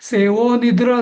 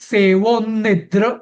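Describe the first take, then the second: First: The joined consonant is said lightly, without force. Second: The joined consonant is said with strong force. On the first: The speaker calls it wrong. "असं म्हणणं" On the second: The speaker calls it right. "जोर दावून आघात देऊन"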